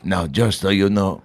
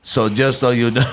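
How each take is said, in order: First: Slow, lightly voiced Malkovich; a hint of Malkovich, drawn out; John Malkovich impression. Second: Put-on Malkovich with a Russian accent. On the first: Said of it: "I don't do a Malkovich". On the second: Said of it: "well, he's got a Russian accent".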